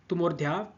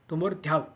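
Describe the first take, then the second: The two takes are said the same way.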